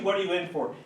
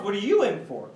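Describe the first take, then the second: First: Said in the usual way. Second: "you" jumps up in pitch; stress on YOU. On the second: Acted. Boy returning the question to the other, stress on "you". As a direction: lean on "you", turning the question back.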